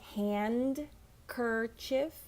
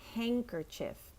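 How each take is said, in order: First: The D in the middle is pronounced. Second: The D in the middle is silent. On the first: The speaker calls it wrong. "it looks like hand kerchief" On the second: The speaker calls it right. "the D is silent"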